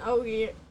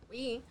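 First: The word sounds like 'oy', rhyming with 'boy'. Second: The word sounds like 'wee', rhyming with 'see'. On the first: The speaker calls it wrong. "I said oi because there's an oi" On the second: The speaker calls it right. "you pronounce it wee"

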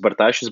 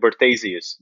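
First: The surname is pronounced the Lithuanian way. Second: The surname is pronounced the English way. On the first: "If you follow Lithuanian pronunciation" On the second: "just like as you read it"

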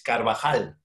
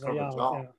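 First: The name is said with Spanish pronunciation. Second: The name is said with Portuguese pronunciation. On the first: "in Spanish is Carvajal" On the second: "let me listen to this, and then it's Carvajal"

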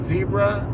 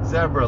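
First: The first vowel sounds like 'bee'. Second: The first vowel sounds like 'bed'. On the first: "you mean zebra?" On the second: "like they say it in the UK, the correct way"

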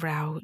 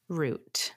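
First: The vowel sounds like 'ow' in out. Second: The vowel sounds like 'oo' in boot. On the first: The speaker calls it wrong. "Where's out?" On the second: The speaker calls it right. "It's root"

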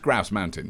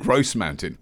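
First: It is said in the speaker's British accent. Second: It is said imitating a Canadian woman's accent.

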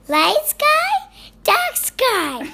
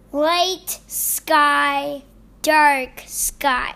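First: It is said in a put-on voice. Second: It is said in a normal voice.

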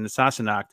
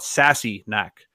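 First: It is said as one word, Sassenach. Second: It is said as two words, sassy knack. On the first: "the correct pronunciation" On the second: "I want to call it Sassy Knack. Because she was so sassy"

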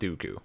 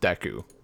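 First: The first syllable sounds like 'doo'. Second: The first syllable sounds like 'day'. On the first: The speaker calls it wrong. "I pronounce it Dooku" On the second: The speaker calls it right. "there's no way this could possibly be pronounced Deku"

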